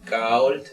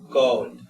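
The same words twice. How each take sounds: First: The vowel sounds like A leaning toward O. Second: The vowel sounds like O leaning toward A. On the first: "puede ser como una A tendiendo a O" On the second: "o puede ser una O tendiendo a A"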